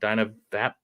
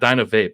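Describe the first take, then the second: First: The last word has a short vowel, like 'tap'. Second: The last word has a long vowel, like 'tape'. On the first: The speaker calls it right. "I think it's Dyna Vap" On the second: The speaker calls it wrong. "It's not Dyna Vape"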